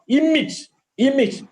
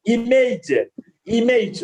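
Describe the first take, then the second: First: "Image" with a short "ij" ending; corrected pronunciation. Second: "image" as "ee-mayj", long second vowel; usual mispronunciation. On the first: Teacher modelling after the error, corrected pronunciation. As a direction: say "image" as "IM-ij", weak second syllable. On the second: Teacher showing the wrong way, usual mispronunciation. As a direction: stretch the end of "image" to rhyme with "age". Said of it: "We normally pronouncing". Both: Shown as a demonstration.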